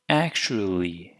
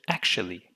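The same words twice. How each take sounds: First: An American accent with a longer, heavier L. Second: A British accent with a very light L. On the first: "American English" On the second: "British English"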